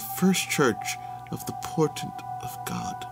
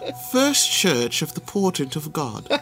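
First: The phrase is said at a quieter volume. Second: The phrase is said at a louder volume. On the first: The speaker calls it wrong. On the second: The speaker calls it right.

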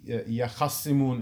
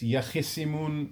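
First: An 'a' vowel follows the kh sound. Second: An 'i' vowel follows the kh sound. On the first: This is the reading of a second tradition. "in Warsh" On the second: This is the reading of one tradition. "in the qira'ah of Kufa"

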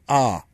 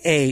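First: The word is said with an 'ah' vowel. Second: The word is said with an 'ay' vowel. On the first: The speaker calls it right. "You got to say ah" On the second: The speaker calls it wrong. "You can't say A"

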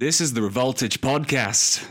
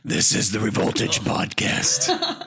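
First: It is said in a plain, ordinary voice. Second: It is said in a deep, gravelly growl.

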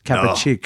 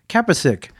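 First: The surname is pronounced in its Serbian way. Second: The surname is pronounced in an Americanized way. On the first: The speaker calls it right. "no, it's Kapicic" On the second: The speaker calls it wrong. "I thought you were pronouncing like Zapsic"

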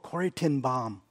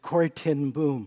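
First: The name is said with a Dutch-style pronunciation. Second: The name is said with an English-style pronunciation. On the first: The speaker calls it right. "They said, "Oh" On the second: The speaker calls it wrong. "my whole life I'd mispronounced her name"

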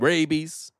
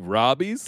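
First: The first vowel sounds like the one in 'ray'. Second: The first vowel sounds like the one in 'rob'. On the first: The speaker calls it right. "did you mean rabies?" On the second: The speaker calls it wrong. "did you say robbies?"

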